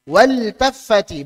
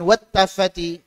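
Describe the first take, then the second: First: The l is pronounced clearly before the t. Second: The l merges into a doubled t sound. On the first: The speaker calls it right. "kok dibaca idhar" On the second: The speaker calls it wrong. "bukan wat taffati"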